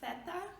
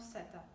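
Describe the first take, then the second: First: It begins with a 'th' sound. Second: It begins with an 's' sound. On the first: This is how it is said in Spain. "pronounced like theta in Spain" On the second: This is how it is said in South America. "or seta"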